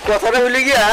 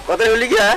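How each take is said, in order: Both takes have the same delivery.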